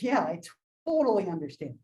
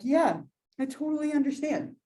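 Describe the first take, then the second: First: It is said in a sarcastic, mocking tone. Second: It is said in a sincere, sympathetic tone. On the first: The speaker does not really understand or care. "Or you can have sarcasm and be like" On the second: The speaker really understands and sympathizes. "Which conveys like genuine like understanding, or, or like sympathy"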